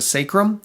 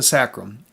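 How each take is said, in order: First: The first vowel is a long 'ay' sound. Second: The first vowel is a short 'a' sound. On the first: "you can have a long A sound and call it the" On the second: "or you can call it the"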